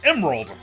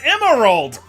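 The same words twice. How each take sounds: First: The word is said with two syllables. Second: The word is said with three full syllables. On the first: The speaker calls it right. "It's Emerald" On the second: The speaker calls it wrong. "pronouncing Emerald with three syllables"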